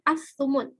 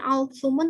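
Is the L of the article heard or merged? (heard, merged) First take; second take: merged; heard. First: The L merges into a doubled S sound. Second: The L sound is pronounced before the S. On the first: The speaker calls it right. "tapi as-sumun" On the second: The speaker calls it wrong. "Bukan al-sumun"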